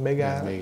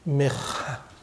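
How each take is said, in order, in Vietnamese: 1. Âm phụ ở giữa là âm g cứng. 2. Âm phụ ở giữa là âm h. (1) "Giống như thử là cái bạc đi mua con sổ mà Powerball" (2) "Hay là nhiều khi bạc đọc là Meha"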